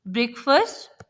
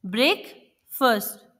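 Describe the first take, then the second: First: Said in the usual way. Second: breakfast broken in two, break, pause, fast; split into syllables. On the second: Shown as a demonstration. Teacher showing children two syllables, breakfast split by a pause. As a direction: say breakfast as two slow, separate beats. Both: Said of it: "दो अलग-अलग sounds को".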